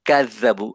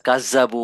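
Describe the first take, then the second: First: The tongue comes out, giving a 'th' sound. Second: The tongue stays inside, giving a 'z' sound. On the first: The speaker calls it right. "কাজাবু জিভা বের করে ফেলতে হবে" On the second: The speaker calls it wrong. "এরকম শোনা যাবে"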